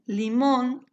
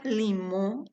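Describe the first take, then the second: First: Said in the usual way. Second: Limón said "limõ", without the final n; Guarani adaptation. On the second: Shown as a demonstration. Teacher listing phonetic adaptations, limón ending open as "limõ". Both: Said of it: "adaptaciones fonéticas".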